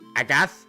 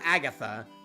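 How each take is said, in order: First: The name ends with no final vowel sound. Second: The name ends with a final vowel sound. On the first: The speaker calls it right. "So it's just Agath" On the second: The speaker calls it wrong. "so it's not Agatha"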